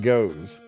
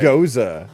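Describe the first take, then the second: First: The word has one syllable, like English 'goes'. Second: The word has two syllables, ending in a vowel. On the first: The speaker calls it wrong. "not goes" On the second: The speaker calls it right.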